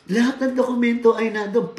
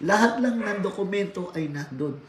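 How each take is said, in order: First: "Lahat" hit harder and louder on the repeat; emphatic repeat. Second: Said in the usual way. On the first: Shown as a demonstration. Trainer to seminar class, repeating the point louder, emphatic.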